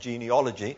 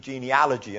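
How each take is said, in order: First: The ending sounds like 'ology', as in biology. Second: The ending sounds like 'alogy', as in allergy. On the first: The speaker calls it wrong. "and not genealogy" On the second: The speaker calls it right. "the word's actually genealogy"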